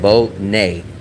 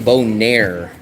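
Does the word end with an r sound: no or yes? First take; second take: no; yes. First: The word ends without any r sound. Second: The word ends with an r sound. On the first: The speaker calls it right. "Nair without the R, and that's how I say it" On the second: The speaker calls it wrong. "I do not say Bonaire"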